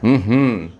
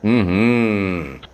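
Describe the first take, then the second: First: The opening hum is cut short. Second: The opening hum is held long. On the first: The speaker calls it wrong. "a lot of people will be like, mm-hmm, because they can't sustain the mm" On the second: The speaker calls it right. "the more you can sustain that"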